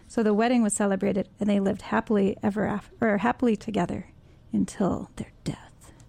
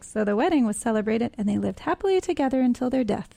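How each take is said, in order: First: It is read in a dark, grim tone. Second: It is read in a cheerful, upbeat tone.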